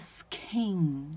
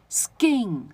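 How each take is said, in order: First: The k is said with a puff of air. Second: The k is said without a puff of air. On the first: The speaker calls it wrong. "不是Skin" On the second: The speaker calls it right. "这个k 就会从送气变成不送气的状态"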